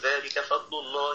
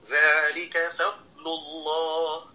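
First: The dad sound is blurred into the following lam. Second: The dad sound is clearly drawn out and heavy. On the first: The speaker calls it wrong. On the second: The speaker calls it right.

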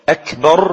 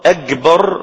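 First: The middle consonant is a k sound. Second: The middle consonant is a g sound. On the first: The speaker calls it right. "بالكاف" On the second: The speaker calls it wrong. "قلب حرف الكاف جيما"

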